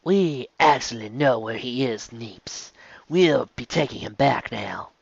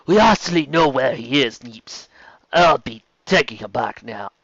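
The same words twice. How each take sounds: First: Slower, softer corrected character take. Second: The voice meant for another character; slipping into the wrong character. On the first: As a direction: redo the line in the right character's voice. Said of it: "completely wrong character". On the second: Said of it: "Sorry, completely wrong character". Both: Acted.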